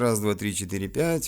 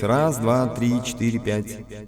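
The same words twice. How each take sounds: First: The treble is boosted, so the voice sounds bright. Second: An added effect audibly processes the voice. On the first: "Вот вам высокие" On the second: "нажмем эффект"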